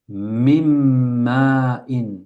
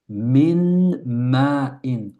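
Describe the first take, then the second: First: The n merges fully into the following m. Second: The n is pronounced clearly before the m. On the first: The speaker calls it right. "On dit mim" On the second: The speaker calls it wrong. "on ne dit pas min ma'in. C'est lourd"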